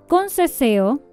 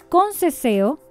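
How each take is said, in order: Both takes have the same delivery.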